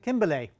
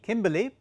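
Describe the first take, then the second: First: The name ends in an accented 'ay' sound. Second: The name ends in a plain 'ee' sound. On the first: "given the the accent at the end of the word, I'll call it Kimberlé" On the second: "it may be Kimberly"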